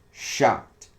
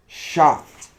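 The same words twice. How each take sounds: First: Said in the usual way. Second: Louder, struck by the word Shocked; shocked realization. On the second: A narrator's reading. Alvira names the tone of Nellie's voice, shocked. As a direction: land Shocked. as a sudden discovery. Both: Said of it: "analyze the tone of her voice".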